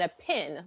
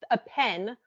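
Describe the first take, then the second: First: "pin" with a short i, as in sit; distinct pin vowel. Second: "pen" with a clear short e, as in bed; distinct pen vowel. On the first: Asking about Southern word pairs, pin with an ih. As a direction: keep "pin" apart from pen with an ih vowel. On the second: Asking about Southern word pairs, pen with an eh. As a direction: keep "pen" apart from pin with an eh vowel. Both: Shown as a demonstration. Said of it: "Do you say those words differently?".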